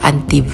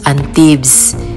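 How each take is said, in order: First: The final S sound is silent. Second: The final S sound is pronounced. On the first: This is how the French say it. "hindi nila binibigkas ang letter S, kaya Antibes lang" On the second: This is how Filipinos would say it. "kung tayo ang mag mag-pronounce Antibes"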